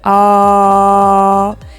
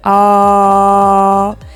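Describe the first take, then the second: First: It is said in a deep voice. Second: It is said in a deep voice.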